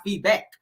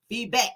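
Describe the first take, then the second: First: Said in the usual way. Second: "feedback" with a hard T added at the end. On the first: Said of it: "not feedback". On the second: Shown as a demonstration. Mocking how Tisha says "feedback", T on the end. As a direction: say "feedback" ending in a crisp T sound. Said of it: "feedback with a T now".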